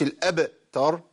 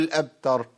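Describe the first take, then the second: First: الأبتر with too big a bounce on ب; heavy vowel-like release in الأبتر; exaggerated qalqala. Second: الأبتر with ب closed, no bounce; unreleased ب in الأبتر; missing qalqala. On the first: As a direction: overdo the echo after ب in الأبتر. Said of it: "وأبالغ في القلقلة". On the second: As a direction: swallow the echo on ب in الأبتر. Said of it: "ما ينفعش". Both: Shown as a demonstration.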